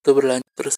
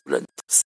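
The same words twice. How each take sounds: First: Said in the usual way. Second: Softer, breathy whispered repeat; trailing whisper. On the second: Real, not acted. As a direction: let the repeat fade into a whisper. Repeats phrase, then fades to whisper.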